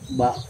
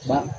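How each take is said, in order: First: The vowel is held long. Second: The vowel is cut short. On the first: "ba panjang" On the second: "ba pendek"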